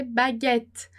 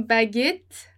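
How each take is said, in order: First: Baguette with an open e as in bet, baGETTE; correct French baguette. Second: Baguette with a closed e, baGAYTTE, said slowly; slow baguette with a tight closed e; wrong French vowel. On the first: Teacher gives students the correct French baguette. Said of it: "a gente vai dizer baguette". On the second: Teacher shows students a second wrong baguette, slowly. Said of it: "nem baguette". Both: Shown as a demonstration.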